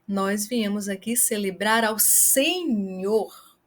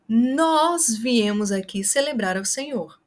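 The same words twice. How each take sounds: First: The word Senhor is stressed. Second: The word nós is stressed. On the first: It highlights who is celebrated. "Se você quer chamar a atenção para a pessoa a qual nós viemos celebrar" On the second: It highlights who came. "para o nós, você vai enfatizar com a gesticulação e com a voz"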